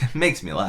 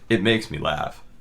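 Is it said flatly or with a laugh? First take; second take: laughing; flatly. First: It is said with a laugh. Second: It is said flatly, without laughing.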